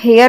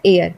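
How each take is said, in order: First: The word begins with an h sound. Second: The word begins with a vowel sound. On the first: The speaker calls it wrong. "इसे हम हेयर नहीं बोलते" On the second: The speaker calls it right. "इसे हम बोलते हैं एयर, क्योंकि इसमें एच साइलेंट है"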